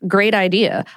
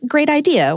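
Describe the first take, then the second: First: It sounds sarcastic and mocking. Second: It sounds sincere and warm.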